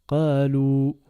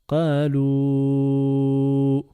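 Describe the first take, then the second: First: The final vowel is held for a normal length. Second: The final vowel is held for a long time.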